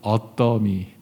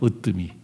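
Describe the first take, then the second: First: It is said in a Gyeongsang pronunciation. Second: It is said in the standard pronunciation.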